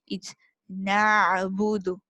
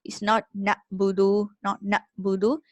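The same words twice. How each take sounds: First: "na'budu" slow, with a squeezed middle throat; correct Ain. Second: "na'budu" with a glottal stop instead of Ain; wrong Hamza-like Ain. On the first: Teacher giving the correct version after the wrong one. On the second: Teacher showing the wrong way, Hamza stop. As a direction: catch the throat on "na'budu" like a Hamza. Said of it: "similar to the sound of Hamza". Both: Shown as a demonstration.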